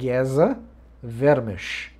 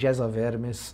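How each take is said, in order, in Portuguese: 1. O nome é pronunciado de forma diferente da sua escrita. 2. O nome é lido exatamente como está escrito. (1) "embora se escreva assim, a pronúncia correta do nome do pesquisador é Geza Vermes" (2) "por favor, não, não falem Geza Vermes"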